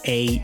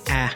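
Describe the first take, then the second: First: It is said like the letter's name. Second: It is said as a short vowel sound. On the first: "that is a" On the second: "or phonetically a"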